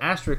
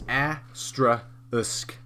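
First: The word ends with the sounds k then s. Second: The word ends with the sounds s then k. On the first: The speaker calls it wrong. "I just said it wrong right there" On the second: The speaker calls it right. "It's asterisk"

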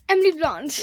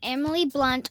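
First: It is said in an English accent. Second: It is said in her usual accent.

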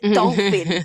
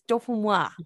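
First: It is said like the English word dolphin. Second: It is said with a French pronunciation. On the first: The speaker calls it wrong. "You don't say it dolphin potatoes" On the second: The speaker calls it right. "It's dauphin noir"

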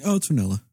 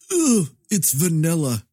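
First: It is said in a neutral, accepting way. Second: It is said with disgust.

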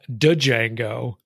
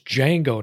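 First: The name starts with a D sound. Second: The name starts without a D sound. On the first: The speaker calls it wrong. "not Django" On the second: The speaker calls it right. "it's Django, not Django. ... that's not how it's written"

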